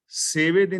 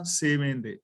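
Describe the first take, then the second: First: ਸੇਵੇ without the nasal ending; ਸੇਵੇ read plainly, no nasal twang; wrong reading. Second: ਸੇਵੇਂ with a nasalised final e; careful ਸੇਵੇਂ with its nasal vowel; correct reading. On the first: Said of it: "ਨਹੀਂ ਪੜਨਾ". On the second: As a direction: say ਸੇਵੇਂ ਦੇ, letting the ending ring through the nose. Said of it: "ਨਹੀਂ ਪੜਨਾ, ਸੇਵੇਂ ਦੇ". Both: Shown as a demonstration.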